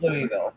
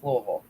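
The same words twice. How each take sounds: First: Louisville as three-syllable "LOO-ee-vil"; outsider pronunciation. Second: Louisville slurred low into "LOH-vul"; local pronunciation. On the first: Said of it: "It's Louisville". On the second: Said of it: "It's not Louisville". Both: Shown as a demonstration.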